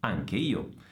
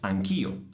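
First: The final vowel of anche is pronounced. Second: The final vowel of anche is dropped.

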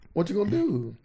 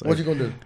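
First: It sounds light and interested. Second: It sounds deep and hostile.

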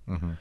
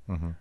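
The two takes are said the same way.

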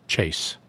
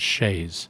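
First: The final S sound is voiceless, like in chase. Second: The final S sound is voiced, like a Z. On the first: The speaker calls it wrong. "this writer said chase, made the S unvocalized" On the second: The speaker calls it right. "They pronounced it chaise"

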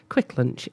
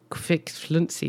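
First: The second word sounds like English 'lunch'. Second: The second word is read letter by letter. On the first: This is how it is said in Norway. The speaker calls it right. "but Quick Lunch in Norway" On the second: This is how the spelling looks. The speaker calls it wrong. "it looks like"

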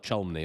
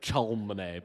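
First: The name is said in a much shorter form. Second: The name is sounded out the way it looks. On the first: The speaker calls it right. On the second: The speaker calls it wrong.

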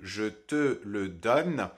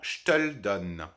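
First: Every syllable is pronounced fully, with all e sounds. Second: The mute e sounds are dropped and words run together. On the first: "à la place de" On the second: "ça donnerait uniquement"

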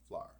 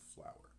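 First: The word is squeezed into one syllable, like flar. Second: The word is said with two full syllables. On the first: "many Indians prefer to pronounce words such as flower as flar" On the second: "as opposed to"

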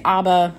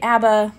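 First: It is said with a Swedish pronunciation. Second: It is said with an American pronunciation.

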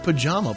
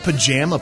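First: The middle syllable sounds like 'jaw'. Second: The middle syllable sounds like 'jam'. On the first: The speaker calls it right. "Jaw, not jam" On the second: The speaker calls it wrong. "It's not a pajama party"

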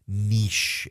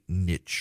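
First: The word is said in a posh, elite-sounding way. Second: The word is said in a plain, everyday way.

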